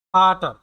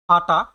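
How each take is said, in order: First: ফাটার said louder, with its final r sounded clearly. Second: Said in the usual way. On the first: Shown as a demonstration. Teacher repeats Vater so students can copy it. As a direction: hit the closing r of ফাটার. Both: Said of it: "ফাটার উচ্চারণ করবেন".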